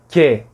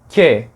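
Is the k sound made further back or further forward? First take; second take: forward; forward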